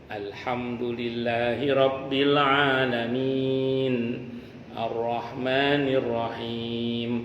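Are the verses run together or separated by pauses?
separated. Each verse is separated by a clear pause. The recitation follows the proper, unhurried way. The speaker calls it right. "yang sahih adalah"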